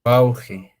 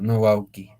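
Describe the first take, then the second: First: "wauji" said with a breathy j sound; "wauji" pronounced with j, the correct way; right form. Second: "wauki" said with a hard k sound; "wauki" pronounced with k, as the mistaken spelling; wrong form. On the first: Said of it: "Si no, es". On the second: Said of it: "se pronuncia wauki". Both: Shown as a demonstration.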